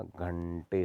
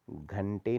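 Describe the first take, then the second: First: घंटे with a long curled-tongue ṇ; retroflex ण. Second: घंटे with a short plain n; wrong n sound. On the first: Teacher correcting it, घंटे with drawn-out retroflex nasal. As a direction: hold the ण in घंटे. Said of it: "होता है". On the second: Teacher showing the error, घंटे with plain n. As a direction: say घंटे with dental n. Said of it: "नहीं होता". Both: Shown as a demonstration.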